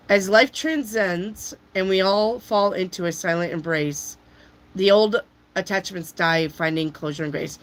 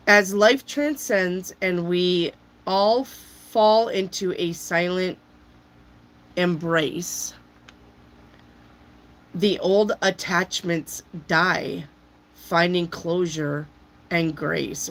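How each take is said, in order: First: Said in the usual way. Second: Slow, spooky reading of a card; slow dramatic reading. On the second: Acted. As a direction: read it like an ominous prophecy.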